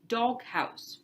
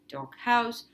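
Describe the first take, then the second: First: The stress is on the first part, dog. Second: The stress is on the second part, house. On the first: It names a compound word. The speaker calls it right. "In a compound, the main stress is always on the first word" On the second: It sounds like a phrase, not a compound. The speaker calls it wrong. "You don't say ... with the stress on the second word"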